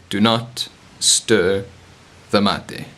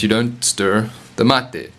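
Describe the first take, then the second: First: "Do not stir" drawn out slowly, pause before "the mate"; emphatic warning. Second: Said in the usual way. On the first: Real, not acted. Teacher warning mate drinkers against stirring, emphatic, slow "Do not stir".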